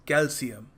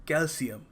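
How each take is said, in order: The two takes are said the same way.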